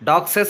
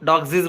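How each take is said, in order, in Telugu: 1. ఈ పదం చివర అదనంగా 'ses' అనే సిలబుల్ ఉంటుంది. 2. ఈ పదం చివర అదనంగా 'zees' అనే సిలబుల్ ఉంటుంది. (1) "డాగ్సెస్ అనకూడదు" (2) "డాగ్జీస్ కూడా అనకూడదు"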